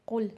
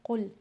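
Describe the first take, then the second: First: कुल with a light front k, the wrong way; कुल said lightly, not from the throat. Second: कुल with tafkheem; full heavy qaf. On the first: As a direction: say कुल with a thin, light k sound. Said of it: "कुल नहीं कहना है". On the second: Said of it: "काफ को तफखीम के साथ पढ़ना है". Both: Shown as a demonstration.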